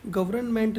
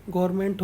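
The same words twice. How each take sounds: First: गवर्नमेंट with every letter sounded, gav-ar-na-ment; the wrong way, saying the silent n in गवर्नमेंट; गवर्नमेंट spelled out in full with the n voiced; wrong pronunciation. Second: गवर्नमेंट as gor-ment, silent n dropped; the right way, गवर्नमेंट without the n; गवर्नमेंट said short as gorment; correct pronunciation. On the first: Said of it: "गवर्नमेंट नहीं होगा". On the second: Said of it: "गवर्नमेंट होगा". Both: Shown as a demonstration.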